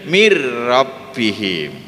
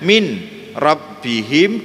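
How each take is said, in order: First: The n sound merges into a doubled r. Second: The n sound is clearly pronounced before r.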